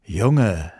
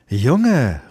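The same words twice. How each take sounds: First: Lightly voiced old moon, gently scolding; a hint of the kindly old moon calling the boy. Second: Higher, louder call of the fierce sun; a stern sun calling the boy; louder sharp call of the sun. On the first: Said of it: "sagte der gute alte Mond". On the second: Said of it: "rief sie". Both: A narrator's reading.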